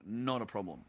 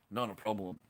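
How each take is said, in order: Both takes have the same delivery.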